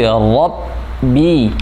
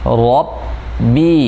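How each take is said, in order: First: The word ends with a clear i vowel. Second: The same.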